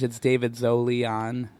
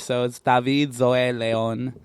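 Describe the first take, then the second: First: The name is said with an English pronunciation. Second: The name is said with a Spanish pronunciation. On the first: "Or in English" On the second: "it's Spanish"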